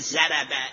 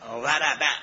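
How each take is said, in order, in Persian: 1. اولین همخوان یک صدای z ساده است. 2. اولین همخوان یک صدای تفخیمی سنگین است. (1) "اگر وربه را مثل ما پیش عرب ها بگه، بگه زربه، این معنی بدی داره" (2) "اگر وات را از مخرج بگید خوبه"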